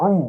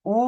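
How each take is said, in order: First: "উ" squeezed from the throat; throat-pressed sound. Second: Said in the usual way. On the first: Shown as a demonstration. Teacher contrasting similar letters for students, throat-squeezed "উ". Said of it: "এটি গলায় চাপ দিয়ে উচ্চারণ হয়". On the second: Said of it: "এটি স্বাভাবিক normal".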